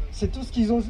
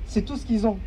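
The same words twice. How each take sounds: The two takes are said the same way.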